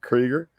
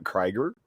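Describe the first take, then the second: First: Krieger said as Kreeger, long ee; corrected pronunciation. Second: Krieger said as Kraiger, long i; mispronounced name. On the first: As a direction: Krieger with the vowel of see. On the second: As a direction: Krieger with the vowel of eye. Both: Real, not acted. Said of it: "I think it's pronounced Krieger".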